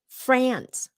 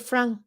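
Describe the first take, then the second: First: It is said with a short American A vowel. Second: It is said with a French-style vowel. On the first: The speaker calls it right. "That short A, giống như là apple" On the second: The speaker calls it wrong. "A lot of Vietnamese pronounce France with the Vietnamese slash French accent"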